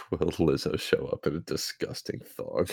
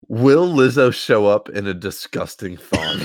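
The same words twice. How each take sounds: First: Laughing through the words; reading while cracking up. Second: Quoting, nearly laughing. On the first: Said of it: "that one got you". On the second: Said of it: "I quote". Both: Real, not acted.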